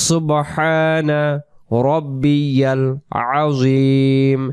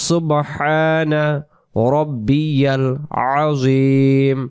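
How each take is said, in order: The two takes are said the same way.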